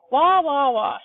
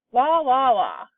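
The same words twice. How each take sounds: First: Put-on loud, high baby cries; old woman turned into a wailing baby; baby bawling. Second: Put-on loud baby cries falling away at the end; baby wailing again, then fading off; baby bawling. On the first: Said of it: "bawling her head off". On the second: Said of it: "she said". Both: A narrator's reading.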